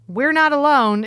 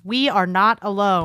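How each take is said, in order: First: We are is merged into one syllable. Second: We and are are said as separate words. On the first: The line sounds flippant. The speaker calls it wrong. "is just a flippant sentence" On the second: The line has more impact. The speaker calls it right. "It has a different impact, a different emphasis"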